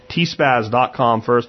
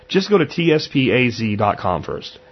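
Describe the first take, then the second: First: "T spaz" said slowly as T plus the word spaz. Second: "T S P A Z" spelled as separate letters, each one named. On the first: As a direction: say "T spaz" slowly, spaz rhyming with jazz. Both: Shown as a demonstration.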